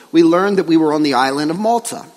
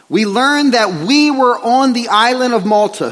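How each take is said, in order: First: Said in the usual way. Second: "we" leaned on, verse read out slightly higher; stress on WE. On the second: Real, not acted. Preacher reads Luke's verse to church, stressing "we". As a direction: read it out, pointing up the second "we".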